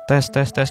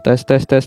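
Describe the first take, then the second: First: The voice sounds thin, lacking low body. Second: The voice sounds slightly fuller and thicker. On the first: "suara saya akan cempang. Kehilangan bodinya" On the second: "suara saya sedikit lebih gemuk ya teman-teman. Sedikit lebih kandel, tebal"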